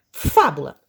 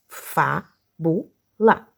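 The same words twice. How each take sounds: First: Said in the usual way. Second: "Fábula" very slowly, in three separate syllables. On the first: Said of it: "escrever a palavra de forma separada". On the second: Shown as a demonstration. Teacher preparing pupils to write it separated, "Fábula" syllable by syllable. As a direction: break "Fábula" up with a pause after each syllable. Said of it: "a palavra de forma separada".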